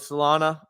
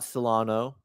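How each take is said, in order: First: The name ends in an 'ah' vowel. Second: The name ends in an 'oh' vowel. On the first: The speaker calls it right. "So Solana" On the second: The speaker calls it wrong. "not Solano"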